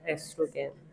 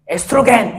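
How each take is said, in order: First: It is said softly and delicately. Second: It is said loudly and forcefully.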